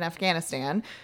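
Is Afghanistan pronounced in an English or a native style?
English. It is said with an English-style pronunciation. The speaker calls it wrong. "I'm not going to say it the Western way"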